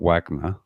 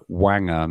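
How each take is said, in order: First: The n sound comes after the g. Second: The n sound comes before the g. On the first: The speaker calls it wrong. "not G N" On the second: The speaker calls it right. "It's N G"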